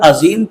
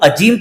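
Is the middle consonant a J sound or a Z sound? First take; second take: Z sound; J sound. First: The middle consonant is a z sound. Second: The middle consonant is a j sound. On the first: Great and exalted. The speaker calls it right. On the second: Mute. The speaker calls it wrong.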